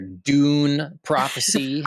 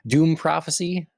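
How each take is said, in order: First: The first word ends with an N sound. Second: The first word ends with an M sound. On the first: The speaker calls it right. "Apologies, everyone. Um, I'll get it together" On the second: The speaker calls it wrong. "did I sort of say it like that? Doom?"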